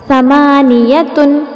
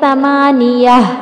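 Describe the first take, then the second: First: The word ends with a t sound and n. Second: The word ends with a soft h sound.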